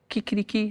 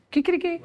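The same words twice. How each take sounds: First: Soft mock crow, kikiriki; a light spoken kikiriki rooster call. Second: High mock rooster crow, Kikiriki. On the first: Imitating the Colombian rooster with a soft kikiriki. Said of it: "la gallina en Colombia hace". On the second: Asking how Spanish roosters crow, high Kikiriki. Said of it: "¿Aquí cómo hacen en España?".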